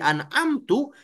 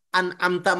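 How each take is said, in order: First: The word ends with a u vowel. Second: The word ends with an a vowel. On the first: I have bestowed favor. The speaker calls it wrong. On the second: You have bestowed favor. The speaker calls it right.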